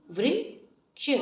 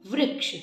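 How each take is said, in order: First: वृक्ष said slowly, the री sound held clearly. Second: Said in the usual way. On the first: Shown as a demonstration. Teacher sounding out the री matra slowly. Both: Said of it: "री का sound सुनाई देना चाहिए".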